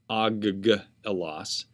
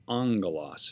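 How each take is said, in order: First: The double gamma sounds like hard g. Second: The double gamma sounds like ng. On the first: The speaker calls it wrong. "not aggelos" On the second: The speaker calls it right. "It's pronounced angelos"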